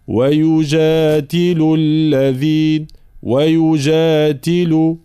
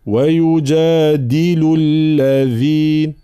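First: "ويجادل" with the د devoiced like ت; wrong ta-like د in "ويجادل"; dal like ta. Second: "ويجادل" with a voiced, strong د; voiced firm dal. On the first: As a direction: say the د in "ويجادل" voiceless like ت. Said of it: "لا نقول". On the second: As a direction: press the د in "ويجادل" with full voicing. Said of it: "لا". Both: Shown as a demonstration.

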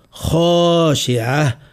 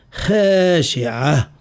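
First: خاشعة with a rounded, over-dark kho; slow, too-emphatic kh in خاشعة; overdone heavy kha. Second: خاشعة with a light, fronted khae; thin خاشعة into khae-shi'a, slowly; over-thinned kha. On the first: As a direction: exaggerate خاشعة into khoo-shi'a. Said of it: "لا نقول". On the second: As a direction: unemphatic kh with long ae in خاشعة. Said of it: "ولا نقول". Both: Shown as a demonstration.

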